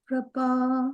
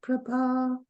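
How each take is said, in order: The two takes are said the same way.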